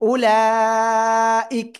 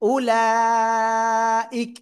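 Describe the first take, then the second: The two takes are said the same way.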